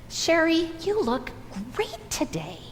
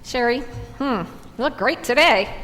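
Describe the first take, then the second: First: The compliment sounds warm and sincere. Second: The compliment sounds doubtful and sarcastic.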